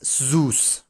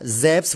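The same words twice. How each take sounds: First: Zeus is said in a non-Greek way. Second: Zeus is said in the Greek way. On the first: The speaker calls it wrong. "I refuse to pronounce it as Zeus" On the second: The speaker calls it right. "which seems to be the Greek pronunciation"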